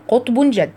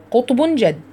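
The two takes are said the same way.

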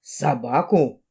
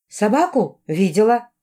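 First: Low, drawn-out sceptical query; slow it right down, lower and doubtful; deep, slow officer's question; frowning policeman. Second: Higher-pitched, rising question; raised, prompting query. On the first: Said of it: "нахмурился полицейский". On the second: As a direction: lift the voice into a question. Heroine puts a leading question. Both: A narrator's reading.

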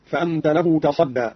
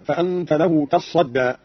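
First: Said in the usual way. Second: تصدى with a held, doubled ص; doubled sad. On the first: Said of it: "قرأ قالون بتشديد الصاد". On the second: Shown as a demonstration. Teacher showing Qalun's reading, تصدى with shadda on the ص. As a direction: say تصدى as "tassadda", slowly recited. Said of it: "بتشديد الصاد هكذا".

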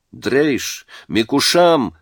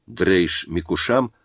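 First: Higher-pitched narrated yell; guttural yell. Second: Said in the usual way. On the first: A narrator's reading. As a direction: call it out as a foreign threat, raised in pitch. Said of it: "заорали из окна гортанно". (гортанный выкрик повыше)

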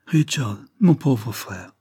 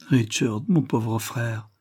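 First: Understated anguished exclamation to a brother; exclaimed. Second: Slow, subdued murmur of pity; understated murmur to a suffering brother. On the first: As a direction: exclaim it with mild alarm and pity. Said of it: "s'écria Barbara". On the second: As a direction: say it slowly with tender sorrow. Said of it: "murmura Barbara". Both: A narrator's reading.

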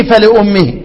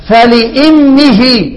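First: "فلأمه" read as fa-li-ummihi with a rounded u; fa-li-ummihi with damma. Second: "فلامه" read as fa-li-immihi, very slow; fa-li-immihi with kasra. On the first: Teacher listing the damma reading for students. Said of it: "ادي ايه؟". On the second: Teacher demonstrating the kasra reading, very slow. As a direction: stretch "فلامه" with kasra on the hamza. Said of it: "انتبه معي". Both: Shown as a demonstration.

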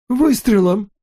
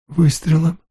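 First: Выше и резче, почти вскрик; повтори, осознавая весь ужас; потрясённый повтор. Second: Тихий вопрос с подъёмом, в неверии; переспроси, ещё не понимая; ошеломлённый переспрос. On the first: (нарастающий ужас) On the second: (ошеломлённое неверие) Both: Acted. Отец не верит услышанному.

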